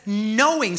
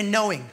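First: Knowing said firmly, falling; stress on Knowing. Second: Knowing repeated, short and falling; stress on Knowing. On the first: Preacher leading the congregation to repeat, firm Knowing. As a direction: lean hard on Knowing. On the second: Preacher prompting the church to answer, firm Knowing. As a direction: echo Knowing firmly. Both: Shown as a demonstration. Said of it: "someone say".

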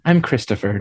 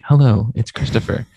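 First: Said in the usual way. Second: Low, smooth radio host voice; NPR voice. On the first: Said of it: "I talk into the mic like this". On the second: Shown as a demonstration. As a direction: put on a public radio announcer voice. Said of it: "Like, I'm N P R".

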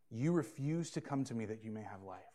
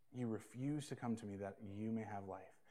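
First: Said in the usual way. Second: Soft repeat. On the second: Shown as a demonstration. Pastor softly repeats the verse to the congregation, hushed. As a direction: repeat it much softer, leaning on "refuse". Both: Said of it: "look at verse forty with me".

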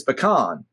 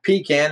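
First: "pecan" as puh-KAHN; higher-pitched correction: pecan said puh-kahn; puh-KAHN, the corrected way. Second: "pecan" as PEE-can, slowly; long ee up front in pecan, can as in tin can; higher, slow "pecan" said pee-can; PEE-can, the rejected way. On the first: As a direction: stress the second syllable of pecan, with a broad ah. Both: Retold or imitated. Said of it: "it's not pecan, it's pecan".

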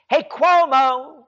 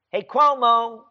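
First: Calling out. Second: Said in the usual way. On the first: Real, not acted.

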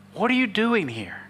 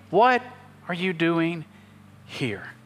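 First: Said in the usual way. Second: "What" lifted, then "are you doing" drops, "here" trails off to near silence; a gentle, drawn-out question that dies away; slow, fading question. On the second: Retold or imitated. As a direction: stretch "What are you doing here?" with pauses, letting "here" fade almost to a whisper. God's question slowed, fading.

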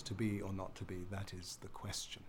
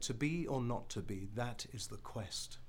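First: Quieter, uncertain ending on "question"; blurred certainty. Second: Steady iambic beat, ending decisively on "quest"; too positive. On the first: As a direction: let "question" fall away on an unstressed last syllable. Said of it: "it blurs the certainty". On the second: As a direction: cut the line off firmly on a stressed "quest". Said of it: "It's too positive". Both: Shown as a demonstration.

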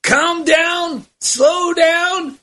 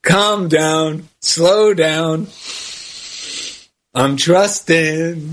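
First: Eddie Murphy impression. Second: Low, slow Southern gentleman drawl; old southern gentleman. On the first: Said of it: "it's Eddie Murphy". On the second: Retold or imitated. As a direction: ease it out like an old Southern gent. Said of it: "He really talks like a Southern gentleman".

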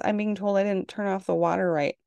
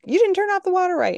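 First: Said in the usual way. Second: High, loud, fast teasing imitation; mocking daughter. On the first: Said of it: "that's how ridiculous it gets". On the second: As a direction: tease her by parroting her. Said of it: "give her crap".

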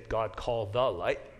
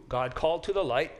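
First: "called THE light", slow, with "the" set apart; version without preposition. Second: "called TO the light", with "to" clearly sounded; version with preposition. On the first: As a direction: quote it slowly, leaning on "the". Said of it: "many of your versions will just say". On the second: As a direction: restate it firmly, keeping "to" distinct. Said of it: "there is a preposition there". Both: Shown as a demonstration.

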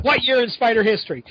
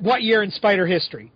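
First: Abrupt caller question, a little higher; blunt caller quote. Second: Flat, abrupt question from the caller; blunt caller quote. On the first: Co-host's late-night call, mocked abruptly. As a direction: repeat the demand as if mocking it. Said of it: "And that's what". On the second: Co-host's late-night call, quoted bluntly. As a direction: toss it off with no hello. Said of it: "the thing I get". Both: Retold or imitated.

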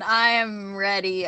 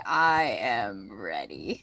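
First: Said in the usual way. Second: Much lower and slowed right down; deep slow voice. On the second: Pretend. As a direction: drop into a deep, dragged-out growl. Eager repeat, then deep version.

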